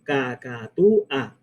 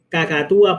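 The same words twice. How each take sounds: First: CACATÚA slowly as ca-ca-tú-a; slow syllable-by-syllable cacatúa; split into syllables. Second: Said in the usual way. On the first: Shown as a demonstration. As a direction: say cacatúa in four separate beats. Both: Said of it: "por ejemplo".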